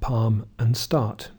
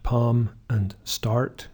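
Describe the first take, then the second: First: No R sound follows the vowel in start. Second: An R sound follows the vowel in start. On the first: "the R is usually missing. So we have the same vowel" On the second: "where the R is pronounced after a vowel, these two words will be different"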